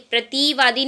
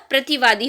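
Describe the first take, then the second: First: प्रतिवादी with TI stretched to "tee"; wrong long I. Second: प्रतिवादी with a quick short TI; correct short I. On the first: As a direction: say "pra-tee-vaadi" for प्रतिवादी. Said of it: "प्रतिवादी नहीं होता". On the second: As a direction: say "pra-ti-vaadi" for प्रतिवादी. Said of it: "तापे छोटी की मात्रा आएगी". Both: Shown as a demonstration.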